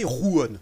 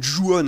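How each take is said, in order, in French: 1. Le mot commence par un son R. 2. Le mot commence par un son J. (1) "on m'avait dit que ça se prononçait Ruon" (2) "j'ai pas prononcé comme il faut"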